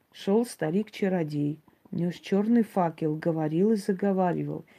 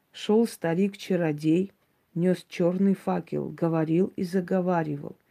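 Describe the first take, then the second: No difference in how they are said.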